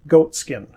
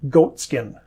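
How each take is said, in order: Both takes have the same delivery.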